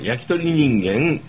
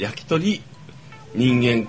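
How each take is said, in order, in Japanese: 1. 'yaki'の後で区切る。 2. 'yakitori'の後で区切る。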